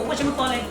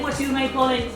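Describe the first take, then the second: First: The words run together into one reduced word. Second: Each word is said separately and fully. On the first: The speaker calls it right. "Then go for" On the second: The speaker calls it wrong. "they don't say"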